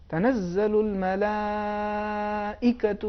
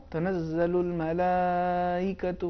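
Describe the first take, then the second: First: الملائکۃ recited very slowly with the hamza struck sharp and sudden; with nabr on the hamza. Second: الملائکۃ recited very slowly with the hamza softened, no catch; hamza without nabr. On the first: Teacher reciting الملائکۃ correctly for the viewers. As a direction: chant الملائکۃ, snapping its hamza like a small burst. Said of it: "اس کا صحیح تلفظ یہ ہے". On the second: Teacher showing viewers الملائکۃ recited without nabr. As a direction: glide through the hamza of الملائکۃ gently. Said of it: "لیکن اگر نبر نہ ہو". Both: Shown as a demonstration.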